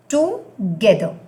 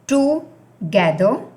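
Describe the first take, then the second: First: It is said as one single word. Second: It is said as two separate words. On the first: It means with someone. "that is one word" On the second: It means to collect. "they are two separate words"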